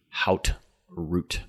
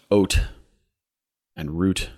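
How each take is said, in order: First: The first word starts with an h sound. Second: The first word starts with a vowel, no h. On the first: "the American pronunciation would be hout root" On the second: "It's pronounced oat and root"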